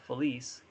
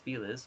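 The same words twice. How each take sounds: First: The name gets its formal, as-written pronunciation. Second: The name gets its casual local pronunciation. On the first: This is the correct original pronunciation. "which is probably the proper way to say it" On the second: This is how people in the area say it. "everybody here says Feliz"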